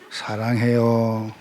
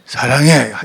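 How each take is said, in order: First: It is said in a soft, gentle way. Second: It is said in a tough, harsh way.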